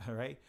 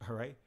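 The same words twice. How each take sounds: No difference in how they are said.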